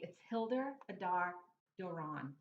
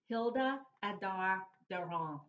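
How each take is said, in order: First: The name is said with an English accent. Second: The name is said with a French accent.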